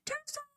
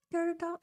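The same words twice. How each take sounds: First: High, soft squeal of the name; tiny high delighted squeal. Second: Said in the usual way. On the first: Real, not acted.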